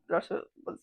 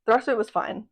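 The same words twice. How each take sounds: First: Whispered. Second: Said in the usual way. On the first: Shown as a demonstration. Pet sitter repeating it to viewers in a whisper. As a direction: whisper it under her breath.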